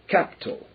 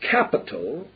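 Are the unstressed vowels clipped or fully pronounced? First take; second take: clipped; full. First: The unstressed vowels are clipped and hurried. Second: All the vowels are pronounced fully. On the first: "as though it were" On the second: "People pronounce the word"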